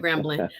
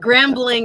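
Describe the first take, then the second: First: The name is said in a relaxed, casual way. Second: The name is said with careful, clear enunciation. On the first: "it's the way we say Grambling" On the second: "I was trying to enunciate"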